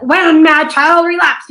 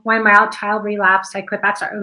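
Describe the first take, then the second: First: High, loud, slow pained delivery; hurt, emotional. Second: Flat, even read with no feeling; monotone. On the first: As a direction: let the hurt pour out, slowly. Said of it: "he's really hurt". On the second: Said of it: "we just kinda read it in a monotone". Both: Shown as a demonstration.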